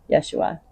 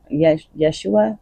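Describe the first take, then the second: First: "Yeshua" whispered, soft and settled; confirming "Yeshua" in a whisper. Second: Slow, hesitant "Yesh-, Yeshua?" with a questioning lift at the end; slow, halting try at "Yeshua", asking if it's right; unsure Yeshua. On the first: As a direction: breathe "Yeshua" to yourself, now sure of it. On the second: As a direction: feel out the name "Yeshua" syllable by syllable, unsure. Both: Shown as a demonstration. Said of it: "Like they're Yeshua".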